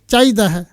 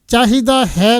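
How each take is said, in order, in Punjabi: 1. h ਸਿਰਫ਼ ਸੁਰ ਵਜੋਂ ਉਚਾਰਿਆ ਜਾਂਦਾ ਹੈ। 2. h ਪੂਰੇ ਵਿਅੰਜਨ ਵਜੋਂ ਉਚਾਰਿਆ ਜਾਂਦਾ ਹੈ।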